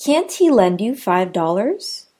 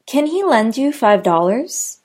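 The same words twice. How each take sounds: First: "Can't" stressed, question rise. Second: "Can" quick and weak, question rise; unstressed can. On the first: Teacher demoing stressed can't in a question. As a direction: hit "Can't" firmly. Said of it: "Notice how can't is stressed". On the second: Teacher demoing unstressed can in a question. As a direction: keep "Can" light. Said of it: "whereas can isn't". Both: Shown as a demonstration.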